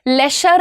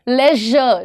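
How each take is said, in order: First: The middle consonant is a voiceless 'sh' sound. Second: The middle consonant is a voiced 'zh' sound. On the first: The speaker calls it wrong. "लेशर नहीं, श नहीं" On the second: The speaker calls it right. "लेजर, ज"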